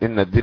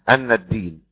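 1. تبدأ الكلمة الأولى بالصوت 'i'. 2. تبدأ الكلمة الأولى بالصوت 'a'. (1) "ويقرأ الباقي كحفص على الاستئناف" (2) "قرأ الكسائي بفتح الهمزة"

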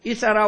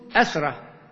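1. تبدأ الكلمة بحركة i. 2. تبدأ الكلمة بحركة a. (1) "ويجوز الكسر للهمزة" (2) "بفتح الهمز أيضا"

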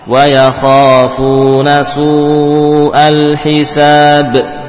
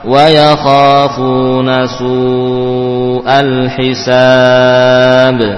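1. Vokal panjang terakhir ditahan dua harakat. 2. Vokal panjang terakhir ditahan enam harakat. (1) "Dua rakaat" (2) "enam harokat"

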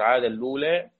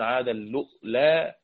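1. الكلمتان تندمجان من غير همزة في الوسط. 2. الكلمتان تندمجان مع همزة في الوسط. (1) "ورش وأبو عمرو عاد اللولا" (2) "وقالوا له الهمز"

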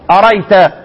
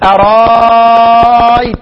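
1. الهمزة الثانية تُحذف تمامًا. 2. الهمزة الثانية تصير ألفًا ممدودة.

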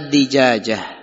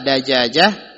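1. Suku kata pertama memiliki vokal 'i'. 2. Suku kata pertama memiliki vokal 'a'. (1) "dan boleh dikasrohkan" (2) "Boleh difathahkan dalnya"

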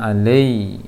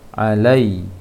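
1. Vokal itu condong ke bunyi E. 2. Vokal itu jelas bergeser ke I.

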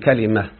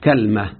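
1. الحركة الأولى فتحة، والحركة الثانية كسرة. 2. الحركة الأولى فتحة، ولا حركة بعد اللام. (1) "فتح الفاء الكلمة وكسر العين" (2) "بفتح الكاف وسكون اللام"

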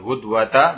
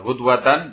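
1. Kata itu berakhir dengan vokal, tanpa n. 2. Kata itu berakhir dengan bunyi n. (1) "berarti apa? Ma'rifat alamiah ma'a ta'nis" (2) "berarti munakkar, nakirah"

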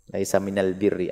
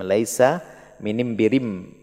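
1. Artikel itu dilafalkan dengan bunyi l. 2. Artikel itu dilafalkan dengan bunyi m.

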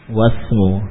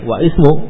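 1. Kata langsung tersambung ke s tanpa vokal. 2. Vokal 'i' terucap sebelum s. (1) "Langsung wasmu" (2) "tidak lagi wa ismu"

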